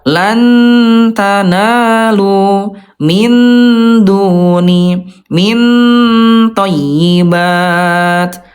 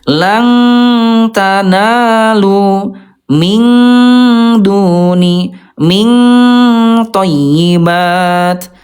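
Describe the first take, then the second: First: The n before t is pronounced fully clear. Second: The n before t is strongly nasalized. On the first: "yang kedua, ayah Bunda itu ayah Bunda itu idhar" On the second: "yang ke satu itu ayah Bunda lebih banyak dengungnya. Langta itu salah ya"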